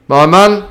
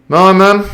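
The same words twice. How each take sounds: First: A hint of a stern captain; captain's voice. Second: A touch of held-back anger; suppressed rage. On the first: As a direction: speak down to him. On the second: Acted. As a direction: hold the rage under the words. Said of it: "suppressing his rage".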